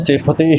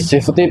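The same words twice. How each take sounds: First: The middle consonant is an aspirated p, lips closed. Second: The middle consonant is a soft f sound. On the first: The speaker calls it right. "ਬੁੱਲ ਜਿਹੜੇ ਹਨ ਇਹ ਉਚਾਰਨ ਕਰਦਿਆਂ ਜੁੜਨੇ ਚਾਹੀਦੇ ਨੇ" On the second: The speaker calls it wrong. "ਫੱਫੇ ਦੇ ਪੈਰ ਦੇ ਵਿੱਚ ਬਿੰਦੀ ਲੱਗ ਜਾਂਦੀ ਹੈ, ਤੇ ਉਹ ਪੋਲਾ ਉਚਾਰਨ ਹੋ ਜਾਂਦਾ ਹੈ"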